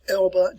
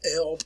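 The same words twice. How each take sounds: First: The final E is pronounced as a syllable. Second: The final E is silent. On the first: The speaker calls it right. "in German, we always pronounce the last E" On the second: The speaker calls it wrong. "not Elbe"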